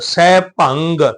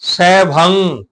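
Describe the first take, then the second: First: The word ends with a full hard g sound. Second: The word ends with a nasal and no g. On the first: The speaker calls it wrong. "ਉਹ ਗੱਗਾ ਪੂਰਾ ਲਾ, ਸੈ ਭੰਗ ਨਹੀਂ ਕਹਿਣਾ" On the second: The speaker calls it right.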